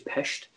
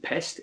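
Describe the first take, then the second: First: The word ends with a 'sht' sound. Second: The word ends with a plain 'st' sound. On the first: The speaker calls it right. "so it is Pest" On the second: The speaker calls it wrong. "it isn't Pest"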